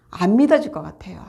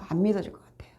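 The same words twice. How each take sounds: First: Said in the usual way. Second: 안 믿어질 것 같아요 repeated in a breathy whisper. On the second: Shown as a demonstration. Preacher confiding doubt to the congregation, whispered.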